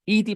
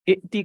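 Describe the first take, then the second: First: A long vowel is heard with no glottal stop. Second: A short vowel is followed by a glottal stop.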